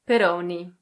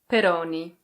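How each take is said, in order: First: It is said with an Italian pronunciation. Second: It is said with an Italian pronunciation.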